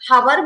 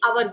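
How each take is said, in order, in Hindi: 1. इस शब्द की शुरुआत h की ध्वनि से होती है। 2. इस शब्द की शुरुआत स्वर की ध्वनि से होती है।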